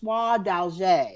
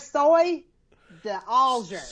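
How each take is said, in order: First: The name is said with French-style sounds. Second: The name is said with anglicized sounds. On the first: The speaker calls it right. "no, it's soie d'alger, I think" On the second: The speaker calls it wrong. "when I can't even pronounce the name of the threads"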